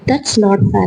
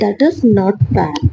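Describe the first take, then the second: First: "That is" is shortened into one syllable. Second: "That is" is said as two full words.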